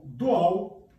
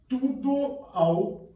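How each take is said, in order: First: "do ao" run together as one syllable; merged in one breath. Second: "tudo ao" drawn out slowly, high, each vowel apart; slow split syllables. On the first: Teacher showing students "do ao" merged into one syllable. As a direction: glide "do ao" in a single breath. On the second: Teacher slowly splitting "tudo ao" for students, high and drawn out. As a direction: stretch out "tudo ao" slowly, higher, vowels separate. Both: Shown as a demonstration. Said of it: "é uma leitura realizada num sopro só".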